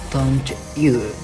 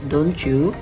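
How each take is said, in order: First: The t and y sounds stay separate. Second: The t and y blend into ch. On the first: "I'll give you an example" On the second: "which often sounds like don't you, don't you in fast speech"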